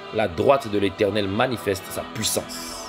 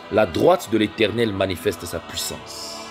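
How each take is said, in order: No difference in how they are said.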